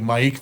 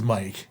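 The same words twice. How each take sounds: First: The pitch trails upward at the end. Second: The pitch stays level at the end. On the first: The name is spelled with a Y. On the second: The name is spelled with an I.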